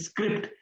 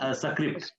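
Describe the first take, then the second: First: The word starts directly with the S sound. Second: An extra vowel sound comes before the S. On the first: The speaker calls it right. "instead of saying script" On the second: The speaker calls it wrong. "it came as a script"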